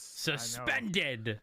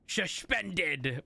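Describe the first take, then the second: First: It starts with a plain 'sus' sound. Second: It starts with a 'shush' sound.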